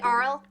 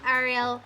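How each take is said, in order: First: The name is said like Arl, one syllable. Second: The name is said like Ariel, several syllables. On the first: The speaker calls it right. "probably Arl" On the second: The speaker calls it wrong. "not Ariel"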